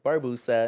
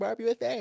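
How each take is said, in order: First: "Barbusa" run together as a single name, casually; "Barbusa" read straight, in the usual pitch; said as one word. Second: "Barb U S A" with the last three letters named one by one, pitched high; "Barb U S A" as a high-pitched misreading, letter by letter; misread as spelled letters. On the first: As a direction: say "Barbusa" as one smooth word, bar-BOO-sa. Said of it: "he was like". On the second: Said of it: "Regardless of there being a fucking space". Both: Retold or imitated.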